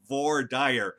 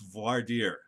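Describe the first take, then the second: First: It is pronounced with an anglicized sound. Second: It is pronounced with a French sound. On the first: The speaker calls it wrong. "please don't say voir dire" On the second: The speaker calls it right. "It's voir dire. It's from French"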